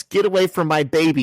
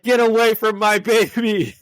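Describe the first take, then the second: First: Higher-pitched mild mock yell; lightly acted protective yell. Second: Loud, high-pitched mocking shriek; hammed-up outraged mother's yell. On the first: Mom yelling at Spider-Man, mild mock yell. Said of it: "she yells". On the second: Woman yelling at the person who caught her baby, mock outrage. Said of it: "And she's like".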